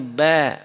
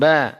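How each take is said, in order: First: The vowel is said with lips spread in a smile. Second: The vowel is said with unsmiling, neutral lips. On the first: The speaker calls it right. "tapi ini ba, beda bunyi vokalnya" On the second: The speaker calls it wrong. "kalau tidak senyum ba"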